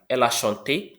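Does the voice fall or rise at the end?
rises. The voice rises at the end. It asks a question. "Did she, did she sing?"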